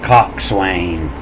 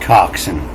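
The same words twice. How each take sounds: First: The word is said in full, with swain. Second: The word is shortened, sounding like coxn. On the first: "the long way" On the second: "We pronounced it coxswain"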